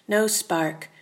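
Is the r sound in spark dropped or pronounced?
pronounced. Said in a general accent, with the r.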